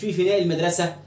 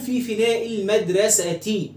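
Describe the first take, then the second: First: The last word ends with a plain 'a' sound. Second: The last word ends with a full 'ti' sound. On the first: The speaker calls it wrong. "مش" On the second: The speaker calls it right. "و تقول"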